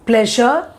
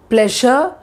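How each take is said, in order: Both takes have the same delivery.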